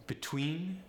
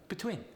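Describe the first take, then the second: First: Said in the usual way. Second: "between" as be-twin, Polish accent; higher "between" with short I for E. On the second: Shown as a demonstration. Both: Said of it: "The E sound goes to the I sound".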